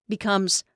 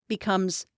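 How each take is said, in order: Both takes have the same delivery.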